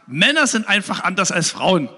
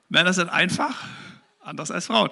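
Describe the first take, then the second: First: It runs on with no pause after 'einfach'. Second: There is a pause after 'einfach'. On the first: Men are simply different from women. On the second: Men are simple, unlike women.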